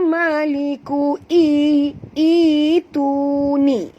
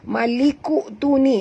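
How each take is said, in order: First: The vowel before tuni is drawn out long. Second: The vowel before tuni is kept short. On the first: The speaker calls it right. "jadikan dia mak badal" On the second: The speaker calls it wrong.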